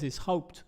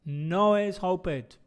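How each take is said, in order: First: "hoped" as one syllable ending in t; correct one syllable. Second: "hoped" with an added syllable, "hop-ed"; wrong extra syllable. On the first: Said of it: "No es, es hoped". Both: Shown as a demonstration.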